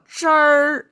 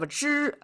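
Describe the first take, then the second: First: It ends with a curled-tongue r sound. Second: It ends cleanly without an r sound.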